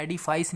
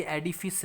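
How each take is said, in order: First: एडिफाइस with a long "fais" ending, like edi-fice; एडिफाइस, the wrong "fais" ending; wrong pronunciation. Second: एडिफिस said slowly with a short "fis" ending; एडिफिस, carefully spelt out as edi-fis; correct pronunciation. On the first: Teacher showing students the form to avoid: एडिफाइस. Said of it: "एडिफाइस नहीं है". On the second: Teacher slowly modelling the right form for students: एडिफिस. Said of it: "pronunciation देख लेना". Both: Shown as a demonstration.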